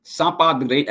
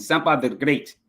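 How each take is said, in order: First: Said in the usual way. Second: Lightly imitated Zambian accent; put-on Zambian accent. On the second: Shown as a demonstration. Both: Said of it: "I gotta do my accent".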